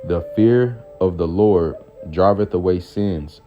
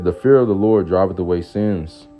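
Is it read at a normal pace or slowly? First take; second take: slowly; normal. First: It is read more slowly. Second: It is read at a normal pace.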